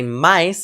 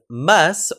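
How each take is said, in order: First: The vowel has an added i glide, Brazilian style. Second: The vowel is plain, with no glide.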